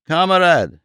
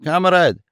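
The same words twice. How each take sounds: First: Higher again, the surrender cry repeated; a mild mock yell of Kamerad!; a repeated desperate Kamerad!; mock scream. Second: Higher, a surrender cry; a hammed-up plea to stop; a mild mock yell of Kamerad!; mock scream. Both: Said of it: "in a piercing voice, screamed".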